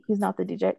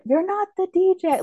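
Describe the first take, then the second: First: Said in the usual way. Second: High-pitched mock yell; retold yell. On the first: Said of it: "saying it before he turns around and then yells it". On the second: Retelling John's line to Smitty driving away, mock yell. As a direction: imitate yelling it, pitch jumping way up. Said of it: "like, yells it".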